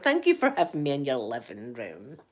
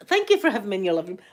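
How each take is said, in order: First: Low, lingering swoop through the thanks. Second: Quick, even repeat of the thanks; brisk thanks. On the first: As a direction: stretch it out, sinking low then lifting. Repeats thanks to viewers, differently. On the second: Host thanking viewers for having her in, brisk. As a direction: say it briskly in your everyday pitch. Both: Real, not acted.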